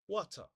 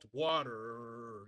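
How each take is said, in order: First: It has a plain T and no R sound. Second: It has a strong R sound at the end. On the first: "They use the plain T sound" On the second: "we gave this word a very throatic R sound"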